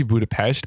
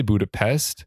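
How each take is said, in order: First: "Budapest" with sh before the final t; Hungarian-style pronunciation. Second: "Budapest" with a plain s before t; Anglicized pronunciation. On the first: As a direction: say "Budapest" as BOO-da-pesht. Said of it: "it's supposed to be Budapest". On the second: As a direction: say "Budapest" as BOO-da-pest. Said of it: "but they say Budapest". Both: Shown as a demonstration.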